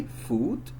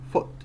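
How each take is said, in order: First: "foot" with a long oo, like food; mispronounced long oo. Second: "foot" with a short, lax oo as in book; correct short oo. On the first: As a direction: stretch the vowel of "foot" into a tense oo. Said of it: "we don't say foot". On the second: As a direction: keep the vowel of "foot" short and relaxed. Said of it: "we say foot". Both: Shown as a demonstration.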